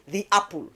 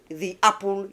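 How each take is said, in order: First: There is a break between the two words. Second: The same.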